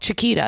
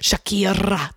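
First: The r in the name is a quick tap. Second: The r in the name is strongly rolled. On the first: "Because one R makes a T sound" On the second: "It's got the R-ta-ta"

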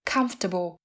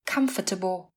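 First: The word is said with three syllables. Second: The word is said with four syllables. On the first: The speaker calls it right. "Thường người bản xứ phát âm là comfortable với 3 âm tiết" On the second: The speaker calls it wrong. "Cách phát âm đầy đủ của từ này là comfortable với 4 âm tiết"

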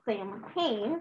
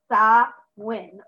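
First: The middle is said with m and h sounds. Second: The middle is said with a w sound. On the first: The speaker calls it wrong. "if you look at it, tempted to pronounce it Samhain" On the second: The speaker calls it right. "It's actually pronounced Sa-win"

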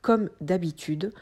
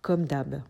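First: The word 'habitude' is said in full. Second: The word 'habitude' is cut short to 'hab'. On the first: This is the standard way to say it. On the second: This is the quick, casual spoken way to say it.

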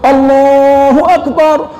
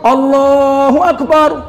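The two takes are said the same way.

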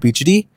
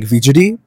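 First: The word begins with a B sound. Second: The word begins with a V sound. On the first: This matches how the word is spelled. "apparently it's spelled with the B like Bijdi" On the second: This is how the speaker said it growing up. "I always said it with the V like Vijdi"

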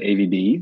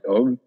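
First: The name is spelled out as separate letters. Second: The name is said as a single syllable. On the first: The reader does not know the background of the name. "if you're in the US and you see AVB, you're probably just going to pronounce it AVB" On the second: The reader understands the background of the name. "you'll call it Aube and you'll know why"

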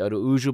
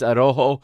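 First: The name is said with a Portuguese pronunciation. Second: The name is said with a Mexican Spanish pronunciation. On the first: "I want to say Araujo, but that's because I'm Portuguese" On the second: "is how they pronounce it in Mexico"

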